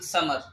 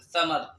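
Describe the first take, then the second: First: The word begins with an s sound. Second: The word begins with a th sound. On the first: The speaker calls it right. "بل نقول سمر" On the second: The speaker calls it wrong. "فلا نقول ثمر"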